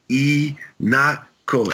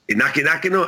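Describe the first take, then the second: First: The name is said in three clear syllables. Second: The name is garbled with extra repeated syllables. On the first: The speaker calls it right. "one more time" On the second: The speaker calls it wrong. "that's not how you say it"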